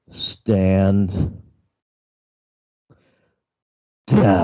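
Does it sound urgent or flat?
flat. It is said flatly, without urgency.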